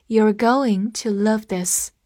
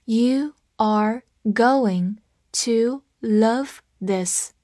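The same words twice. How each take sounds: First: Said in the usual way. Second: Very slow, each word separate; slow read-along. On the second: Shown as a demonstration. Teacher has learners follow along, slow read-along. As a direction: read it one word at a time, slowly. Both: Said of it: "跟我慢读一遍".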